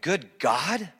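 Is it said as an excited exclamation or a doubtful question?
question. It is a doubtful, questioning query.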